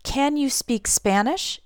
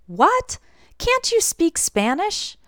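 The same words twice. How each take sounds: First: CAN YOU SPEAK SPANISH asked slowly, rising at the end; slow, even "Can you speak Spanish" with a questioning rise; neutral question. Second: High-pitched, incredulous disbelief; astonished, slow rising question; surprised question. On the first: Shown as a demonstration. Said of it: "is a neutral question". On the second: Acted. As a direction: ask it taken aback, voice leaping up. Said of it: "I'm just surprised".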